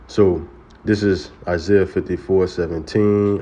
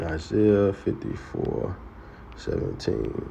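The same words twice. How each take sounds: First: Said in the usual way. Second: Softly repeated. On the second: Shown as a demonstration. Preacher softly repeating the verse reference to himself. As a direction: murmur the reference while finding it.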